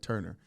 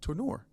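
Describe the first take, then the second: First: The name is said like the English word Turner. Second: The name is said unlike the English word Turner. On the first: The speaker calls it wrong. "I always just looked at his last name and just said Turner" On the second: The speaker calls it right. "I just found out that it's Tourneur"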